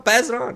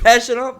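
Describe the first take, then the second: First: Said in the usual way. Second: Fumbled "sh" ending on Pass; slip of the tongue. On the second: Real, not acted. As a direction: PASS slurred to "pash". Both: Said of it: "I said pass".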